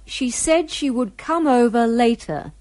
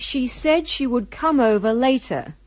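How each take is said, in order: Both takes have the same delivery.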